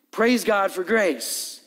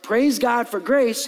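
First: Each word of "Praise God for grace" drawn out slowly; slow emphatic "Praise God for grace"; slow, weighty praise. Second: Said in the usual way. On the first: Shown as a demonstration.

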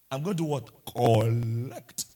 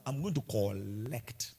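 First: Put-on Nigerian accent, low on Collect; Nigerian man's accent. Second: Put-on slow, low Nigerian man's accent saying collect. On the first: Pastor repeating his interview line, in a louder Nigerian accent. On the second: Pastor mocking himself at interview, in a Nigerian accent. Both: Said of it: "In a Nigerian man's accent".

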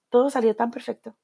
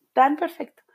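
First: Said in the usual way. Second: Breathy whispered echo of tan perfecto. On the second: Acted. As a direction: whisper the words tan perfecto as a secret aside. Whispered echo of previous line.

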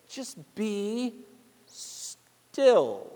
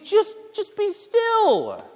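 First: Much softer, near-breathed just be still; tender hush. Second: Higher, slow sing-song just be still; exasperated mock imitation; mocking annoying advice. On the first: Acted. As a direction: let it sink to almost nothing. Repeating God's words softly. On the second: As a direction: mimic the person who grates on you. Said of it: "someone just tells me".

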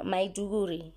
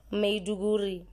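First: Maiduguri with first syllable "my"; Maiduguri said MY-doo-goo-ree. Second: Maiduguri with first syllable "meh"; Maiduguri said MEH-doo-goo-ree. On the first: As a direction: Maiduguri corrected to "maiduguri". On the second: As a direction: Maiduguri pronounced "meduguri", unsure. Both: Shown as a demonstration. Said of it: "I'm not sure how they pronounce it".

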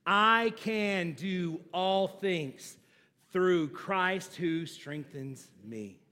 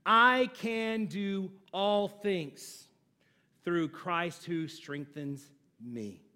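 First: Very slow, word by word; slow congregational recitation; slow recital with the congregation. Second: Very slow, each word weighed; slow, weighty recitation; slow emphatic recital. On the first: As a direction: lead the room through it slowly. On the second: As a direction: recite it slowly and deliberately. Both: Shown as a demonstration. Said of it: "Do it with me".

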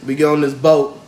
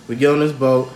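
The two takes are said the same way.

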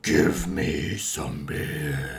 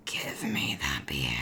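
First: Slow, dragged-out zombie growl; werewolf voice. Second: Very low, slow raspy whisper; angry werewolf voice. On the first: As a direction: drag it out like a laughing zombie. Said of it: "you do it then". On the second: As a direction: whisper it like a growling beast. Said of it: "Can you do your werewolf angry voice?". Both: Pretend.

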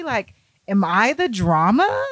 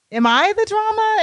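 First: Said in the usual way. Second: Squeaked up high in mock disbelief; mock shocked high. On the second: Shown as a demonstration. Asking Keith in mock shock, high squeak. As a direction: pitch it way up, stunned.

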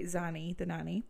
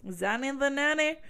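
First: Said in the usual way. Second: Zanny, the nanny sung up higher, playful lilt; repeating Zanny, the nanny as a silly rhyme; singsong. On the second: Shown as a demonstration. Telling viewers the rhyme, playful singsong. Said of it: "that's where my brain goes".

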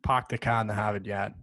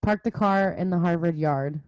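First: Boston accent, "Park" as "Pahk", "car" as "cah". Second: "Harvard yard" with every r sounded; read plainly. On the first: Boston student demoing his accent to a Californian friend. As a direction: drop the r's, Boston style, "Hahvad yahd". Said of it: "It's very Boston". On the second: Reading a Boston test sentence aloud, r's kept. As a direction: say "Park the car in the Harvard yard" with full r's. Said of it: "just read that sentence". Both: Shown as a demonstration.

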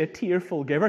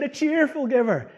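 First: The wrong word "tearful" picked out; stress on TEARFUL. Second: "cheerful" punched high and loud; stress on CHEERFUL. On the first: Preacher rejecting his own slip, stress on "tearful". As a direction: lean on "tearful" as the mistaken word. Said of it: "he didn't say". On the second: Preacher correcting his slip to the verse, loud stress on "cheerful". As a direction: hit "cheerful" hard as the correction. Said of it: "He said". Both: Shown as a demonstration.

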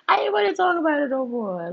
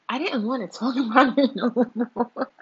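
First: Higher, louder, voice breaking into a cry. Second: Laughing through the words. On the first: Vlogger crying out about her old relationships. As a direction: let the repeat crack into a wail. Repeats line with emotional cry. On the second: Vlogger laughing at her own rant. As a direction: giggle the line out, louder. Laughing while repeating herself. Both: Real, not acted.

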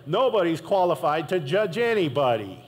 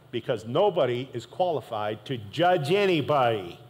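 First: Nobody's qualified to judge anybody said louder, pressed home; emphatic repeat. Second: Said in the usual way. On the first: Shown as a demonstration. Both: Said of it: "Let me say that again".

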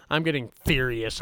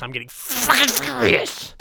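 First: Low-key warning of rising anger; contained fury. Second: High, strained burst of rage; furious. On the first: Host warning viewers of his temper, contained fury. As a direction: hold the fury back, keep it restrained. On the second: Host losing his temper on camera, furious outburst. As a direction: blow up, pitch leaping on the swear. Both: Acted.

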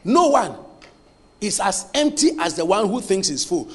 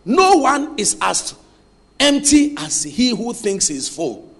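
First: Said in the usual way. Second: Slow and deliberate, word by word; measured dictation pace. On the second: Shown as a demonstration. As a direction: dictate it slowly for them to write. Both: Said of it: "Listen, write this".

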